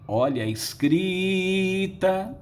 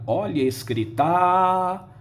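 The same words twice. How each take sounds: First: The stress is on the stretched middle syllable. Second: The stress falls off the middle syllable. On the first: The speaker calls it right. "a sílaba tônica é o cri. ... Vejam aqui o esticamento do i" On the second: The speaker calls it wrong. "Ninguém diria"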